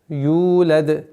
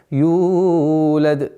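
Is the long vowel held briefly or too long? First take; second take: briefly; too long. First: The long vowel lasts two beats. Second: The long vowel is stretched past two beats. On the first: The speaker calls it right. "долгота в размере двух огласовок" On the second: The speaker calls it wrong. "Больше нельзя. Это ошибка"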